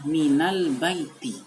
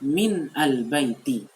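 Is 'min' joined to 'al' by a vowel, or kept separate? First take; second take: joined; separate. First: The n takes an a vowel joining al. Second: The n ends bare, apart from al. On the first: The speaker calls it right. "Bacanya adalah minal baiti" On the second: The speaker calls it wrong. "kadang dibaca min al baiti"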